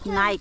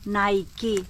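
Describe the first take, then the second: First: Nike is pronounced the Finnish way. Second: Nike is pronounced the standard English way. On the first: "The way we pronounce it" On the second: "Alam ko po, ang pronunciation ng Nike ay Nike"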